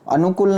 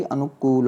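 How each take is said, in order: First: अनुकूल with a quick short u, "anu-kul"; short-u mispronunciation. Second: अनुकूल with a drawn long oo, "anu-kool"; long-u correction. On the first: Teacher shows the wrong short vowel, अनुकूल as "anu-kul". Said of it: "छोटे ऊ की मात्रा तो कुल जल्दी". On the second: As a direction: lengthen the last vowel of अनुकूल. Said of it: "अनुकूल नहीं होता मेरे भाई". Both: Shown as a demonstration.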